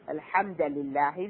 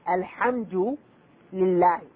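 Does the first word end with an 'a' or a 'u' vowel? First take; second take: a; u. First: The first word ends with an 'a' vowel. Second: The first word ends with a 'u' vowel. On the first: The speaker calls it wrong. "this is tahrif" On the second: The speaker calls it right. "The Quran was revealed saying, Alhamdu lillahi"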